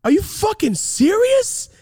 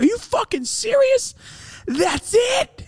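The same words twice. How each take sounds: First: High-pitched, drawn-out outraged shout; incredulous yell. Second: Very high mocking shout; incredulous yell. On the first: Retold or imitated. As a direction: yell it in utter disbelief. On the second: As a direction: yell it as a disbelieving taunt. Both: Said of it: "so I yelled at her".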